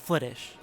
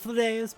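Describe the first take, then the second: First: The name ends with an 'ish' sound. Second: The name ends with an 'us' sound. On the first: This is the Irish way the name is said. "the proper Irish pronunciation" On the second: This is the older way the name was said. "used to be pronounced"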